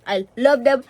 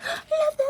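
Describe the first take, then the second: First: Said in the usual way. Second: High-pitched gushing squeal, voice cracking; overjoyed squeal. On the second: Real, not acted. Vlogger gushing over a birthday gift, breaking squeal. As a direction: squeal it like you could cry.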